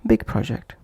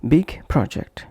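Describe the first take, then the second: First: BIG PROJECT run together without a break; linked words. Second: BIG and PROJECT said apart, each in full; short break after "big" before "project"; separate words. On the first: Teacher repeating the example, linked words. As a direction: push "big" straight into "project". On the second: Teacher repeating the example, separate words. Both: Shown as a demonstration. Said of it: "pronounced as".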